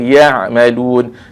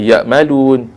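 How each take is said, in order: First: The throat sound after ya is clearly voiced. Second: The throat sound after ya is barely heard. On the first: The speaker calls it right. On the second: The speaker calls it wrong.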